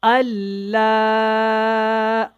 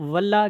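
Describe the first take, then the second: First: The word starts without a w sound. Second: The word starts with a w sound. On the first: The speaker calls it right. "बहुत ध्यान से इसको सीखें" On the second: The speaker calls it wrong. "वल्लाह की आवाज़ निकालते हैं, वाव की"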